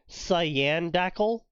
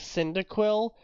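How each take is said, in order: First: The name begins with the sounds 'sy-an'. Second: The name begins with the sound 'sin'. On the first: The speaker calls it wrong. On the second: The speaker calls it right.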